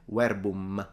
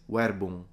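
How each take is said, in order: First: The final M is fully closed and pronounced. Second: The final M is only faintly nasal. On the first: "he doesn't say verbum" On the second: "he only slightly touches the M nasally"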